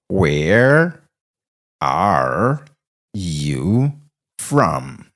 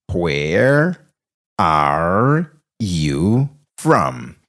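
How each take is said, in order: Both takes have the same delivery.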